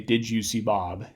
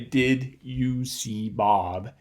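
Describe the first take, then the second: First: The d before 'you' becomes a 'j' sound. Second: The d before 'you' stays a plain d. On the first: "we get some palatalization of this D at the end of the word did" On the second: "I don't say"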